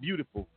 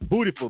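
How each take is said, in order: First: The first syllable sounds like 'byoo'. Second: The first syllable sounds like 'booty'. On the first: It is the ordinary word. "Not beautiful" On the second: The title is a pun on booty.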